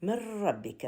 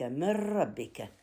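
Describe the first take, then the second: First: Said in the usual way. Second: من ربك drawn out slowly, the nun fully swallowed into the ra with no nasal hum; تلاوة بطيئة بإدغام كامل بلا غنة; slow full merge. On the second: Shown as a demonstration. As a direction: recite من ربك slowly as مرّبك. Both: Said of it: "الراء من ربك يحصل بها إدغام كامل".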